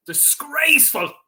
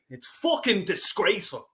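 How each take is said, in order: First: Disgraceful said higher and slower, each syllable hammered; Disgraceful stretched and punched in disgust; emphatic repeat. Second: Said in the usual way. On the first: Real, not acted. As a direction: hit Disgraceful hard and drawn out. Repeats the word in anger.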